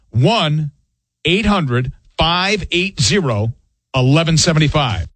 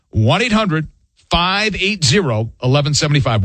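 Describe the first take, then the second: First: The number is said slowly. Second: The number is said at normal speed.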